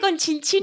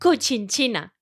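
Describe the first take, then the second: First: The first syllable ends with an n sound. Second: The first syllable has no n sound. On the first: The speaker calls it wrong. "no se dice Conchinchina" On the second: The speaker calls it right. "se dice Cochinchina"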